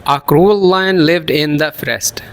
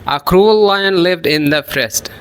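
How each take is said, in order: No difference in how they are said.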